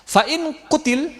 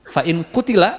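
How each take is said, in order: First: The last word ends without its final vowel. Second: The last word ends with a final a vowel. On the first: The phrase is read as if stopping there. "huruf terakhir jarang dibaca" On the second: The phrase is read as continuing on. "kalau diteruskan"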